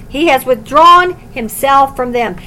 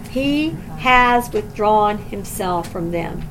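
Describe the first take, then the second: First: Louder, firmly read verse; declared firmly. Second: Sorrowful. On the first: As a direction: state the verdict firmly. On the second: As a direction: let the saddest phrase sink in slowly. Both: Shown as a demonstration. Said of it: "There is no sadder phrase than this".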